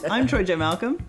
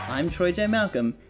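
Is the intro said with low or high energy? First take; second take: high; low. First: It is said with extra pep and energy. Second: It is said with ordinary, low energy.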